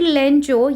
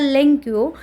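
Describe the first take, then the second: First: The middle consonant is a ch sound. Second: The middle consonant is a k-y sound. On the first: The speaker calls it right. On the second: The speaker calls it wrong.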